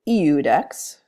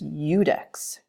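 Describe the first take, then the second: First: The word begins with a plain vowel sound. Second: The word begins with a y sound. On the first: The speaker calls it wrong. "this isn't eudex" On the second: The speaker calls it right. "you pronounce it kind of like a Y"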